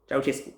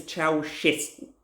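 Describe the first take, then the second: First: Ceausescu as chow-CHES-koo; mispronounced Ceausescu. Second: Ceausescu as chow-SHES-koo; correct Ceausescu pronunciation. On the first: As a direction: quote the wrong Ceausescu, CH in the middle. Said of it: "Stop saying it". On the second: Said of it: "His name is". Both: Shown as a demonstration.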